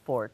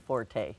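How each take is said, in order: First: It is pronounced the French way. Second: It is pronounced the American way. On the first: The speaker calls it right. "The French word is fort" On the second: The speaker calls it wrong. "we say that in American, forte. It's not really"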